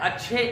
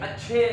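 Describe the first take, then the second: Both takes have the same delivery.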